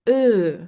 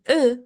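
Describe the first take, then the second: First: The vowel is long. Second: The vowel is short. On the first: The speaker calls it right. "It makes the E long" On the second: The speaker calls it wrong. "instead of saying E"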